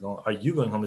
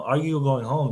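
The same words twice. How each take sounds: First: Accusing stress on "you", falling; "Are you going home?" said as an accusation, falling. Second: "you" lifted, rising question; just asking, lean on "you"; "Are you going home?" with a rise on you; stress on you, asking. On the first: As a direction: point the finger with "you". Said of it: "it sounds more accusative". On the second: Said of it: "is just like asking". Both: Shown as a demonstration.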